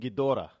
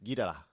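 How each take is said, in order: First: The name is said with English-style sounds. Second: The name is said with Japanese-style sounds. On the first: "That's how we pronounce it" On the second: "if you listen to the Japanese, it's Ghidorah"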